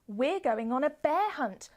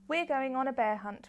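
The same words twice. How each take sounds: First: It is read with lively, varied expression. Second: It is read in a flat, monotone voice. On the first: The speaker calls it right. "is not as engaging for children as" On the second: The speaker calls it wrong. "kind of more monotone, how you might read to yourself"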